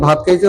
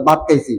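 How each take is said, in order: First: ভাত with a full breathy bh; ভাত said with breathy bh, standard Bangla; standard bh sound. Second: ভাত said as bat, no breath on the b; Mymensingh accent. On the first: Shown as a demonstration. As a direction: say ভাত with aspirated bh, as we say it. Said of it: "আমরা বলে". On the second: Retold or imitated. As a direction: imitate Mymensingh: ভাত with plain b. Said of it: "ভ উচ্চারণ করতে পারে না".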